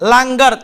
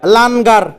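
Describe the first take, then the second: First: The nasal is a velar ng sound. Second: The nasal is a full, clear n sound. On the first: The speaker calls it right. "হয়েছে লাঙ্গার" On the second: The speaker calls it wrong. "যদি মূল নুন হইতো তাহলে এটা উচ্চারণ করতাম লানগার"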